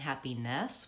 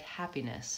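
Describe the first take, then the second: First: The last syllable has a full 'eh' vowel. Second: The last syllable has a reduced 'ih' vowel. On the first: "I'm not really saying happiness with an eh vowel like an e" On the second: "It's more of a reduced to an I vowel"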